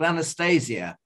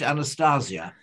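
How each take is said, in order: First: The name is said in an ordinary accent. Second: The name is said in a posh accent.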